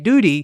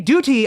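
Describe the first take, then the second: First: The middle consonant is a soft d sound. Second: The middle consonant is a crisp t sound. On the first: "if they don't pronounce the T" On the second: "they actually pronounce the T in duty"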